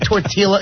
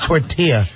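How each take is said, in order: First: The double L is pronounced as an L. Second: The double L is pronounced as a Y. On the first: The speaker calls it wrong. "He pronounced every silent letter there was" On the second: The speaker calls it right. "It's tortilla"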